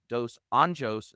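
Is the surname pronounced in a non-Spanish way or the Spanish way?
non-Spanish. The surname is said without a Spanish pronunciation. The speaker calls it right. "I'm going to try to say this correctly"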